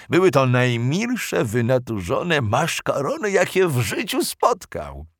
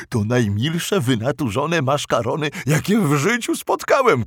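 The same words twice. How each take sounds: First: Said in the usual way. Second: Monster voice, delighted; clumsy monster voice. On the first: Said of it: "narration vs quote". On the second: Acted. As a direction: say it in the creature's voice. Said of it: "zauważył stwór".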